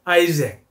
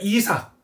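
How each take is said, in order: First: The name starts with an 'eye' sound. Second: The name starts with an 'ee' sound. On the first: "이삭은 뭐라고 나왔죠?" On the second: "우리가 이삭이라 그러면 미국 사람들, 영국 사람들을 못 알아듣습니다"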